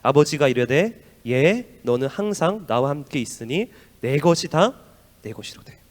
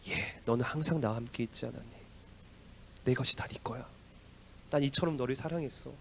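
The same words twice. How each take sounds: First: Slow, loud, measured reading of the verse; preacher leads a congregation reading the verse; scripture reading. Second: Soft, gentle father's reply; father tenderly reassures his angry eldest son, softly. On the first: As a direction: read the father's words aloud together slowly. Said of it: "시작". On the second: Father's loving answer voiced. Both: Acted.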